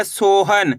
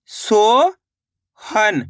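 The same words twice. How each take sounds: First: Said in the usual way. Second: "सोहन" split into a long rising "सो", a pause, then "हन"; syllable by syllable. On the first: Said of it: "दोनों को मिला देना है सोहन". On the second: Shown as a demonstration. Teacher breaking a word up for learners, "सोहन" in two slow parts. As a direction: sound out "सो", wait, then "हन". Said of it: "पहले सो पढ़ना है".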